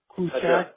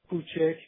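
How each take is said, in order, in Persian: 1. آخرین مصوت باز است، مثل 'a'. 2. آخرین مصوت میانی است، مثل 'e'.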